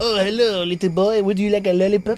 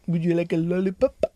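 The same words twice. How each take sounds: First: Mock French accent. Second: Mock German accent. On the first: Joking creepy stranger offering sweets, mock French accent. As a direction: coax in a hammed-up French accent. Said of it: "That's French". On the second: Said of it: "That's what Germans say".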